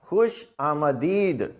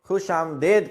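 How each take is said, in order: First: An 'a' vowel is heard right after the m. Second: No vowel is heard right after the m. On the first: The speaker calls it right. "मीम अलिफ मा करके अगर पढ़ेंगे तो दुरुस्त तलफ़ुज़" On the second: The speaker calls it wrong. "अक्सर लोग खुश आमदेद कहते हैं"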